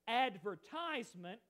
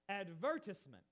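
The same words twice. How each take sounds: First: It is said with the American syllable stress. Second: It is said with the British syllable stress. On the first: "that's the way we pronounce it" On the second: "In England, ... is actually pronounced advertisement, with the emphasis on a different part"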